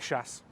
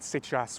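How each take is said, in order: First: The word is one syllable ending in s. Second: The word has two full syllables. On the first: The speaker calls it right. "One syllable, quick, gets the job done" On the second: The speaker calls it wrong. "Nobody says c'est chasse"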